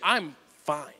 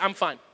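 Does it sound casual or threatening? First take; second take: threatening; casual. First: It is said sharply, as a warning. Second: It is said lightly and casually.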